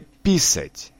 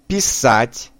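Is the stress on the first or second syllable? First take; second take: first; second. First: The stress is on the first syllable. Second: The stress is on the second syllable. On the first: It means to urinate. The speaker calls it wrong. "но не писать" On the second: It means to write. The speaker calls it right. "Произносим писать"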